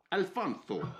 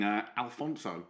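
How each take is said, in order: First: Alfonso with "th" for the s; lisped Alfonso. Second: Said in the usual way. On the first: Shown as a demonstration. Co-host tries new name, Alfonso as "Alfontho".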